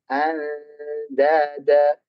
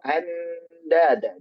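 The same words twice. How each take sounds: First: A slight gap comes between n and d. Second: The n runs straight into the d. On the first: The speaker calls it right. "Jadi ada jarak sedikit" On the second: The speaker calls it wrong. "jangan sampai nempel. Jangan"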